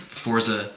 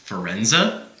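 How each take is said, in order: First: Said with no added e or n sound. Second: Said with an extra e and n sound. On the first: The speaker calls it right. "I'm fine with either one" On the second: The speaker calls it wrong. "they just add e's and n's that don't exist"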